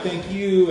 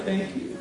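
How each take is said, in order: First: Said in the usual way. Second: Soft, near-whispered imitation; hushed thanks. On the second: Crying man thanking the minister, hushed. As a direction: barely voice it, imitating a moved man. Crying man's reply, retold.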